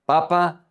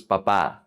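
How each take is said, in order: First: Papa as PA-pa; first-syllable stress. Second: Papá as pa-PÁ; final-syllable stress. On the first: Teacher contrasting potato with dad, Papa stressed first. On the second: Teacher contrasting dad with potato, papá stressed last. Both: Shown as a demonstration. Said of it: "the emphasis is very important".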